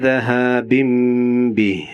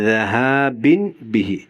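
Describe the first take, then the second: No difference in how they are said.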